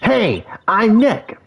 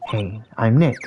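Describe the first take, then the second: First: It is said at a louder volume. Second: It is said at a quieter volume.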